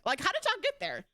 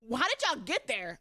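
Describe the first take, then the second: First: Higher, put-on disbelieving voice; incredulous. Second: Said in the usual way. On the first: Shown as a demonstration. Questioning people's logic, in mock disbelief. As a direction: ask it like you can't believe it.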